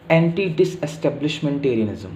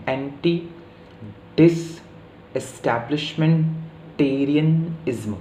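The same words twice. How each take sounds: First: Said in the usual way. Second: anti डिसएस्टैब्लिशमेंटेरियनिज्म slowly, chunk by chunk with pauses; slow teaching breakdown of anti डिसएस्टैब्लिशमेंटेरियनिज्म; broken into parts. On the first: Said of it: "ये पूरा शब्द देखिए". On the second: Shown as a demonstration. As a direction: pause after each part of anti डिसएस्टैब्लिशमेंटेरियनिज्म to count it out. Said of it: "पांच syllable का शब्द हो गया ये".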